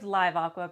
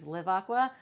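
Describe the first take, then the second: First: Live has a long vowel, rhyming with five. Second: Live has a short vowel, rhyming with give. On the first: It feels more alive. "because it feels more alive" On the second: This is the official name. "the official way to pronounce it"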